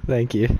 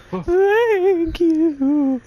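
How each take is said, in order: First: Said in the usual way. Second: High, slow, wavering thank you; mock sobbing thanks. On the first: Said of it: "I mean, thank you". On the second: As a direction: overdo the gratitude, quavering. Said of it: "redone high and drawn out".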